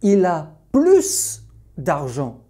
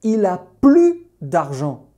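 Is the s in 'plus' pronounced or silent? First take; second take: pronounced; silent. First: The s at the end of plus is pronounced. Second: The s at the end of plus is silent. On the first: He has more money; he is rich. "j'insiste sur l'idée qu'il est riche" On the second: He no longer has any money. "je veux dire il n'a plus d'argent"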